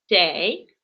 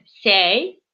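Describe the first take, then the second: First: The word begins with a ts sound. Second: The word begins with an s sound. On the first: This is how speakers of a fourth dialect say it. "четвертый вид диалекта. Там вместо буковки ч говорят ц" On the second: This is how speakers of another dialect say it. "еще есть у нас один диалект, когда вместо ч говорят буковку с"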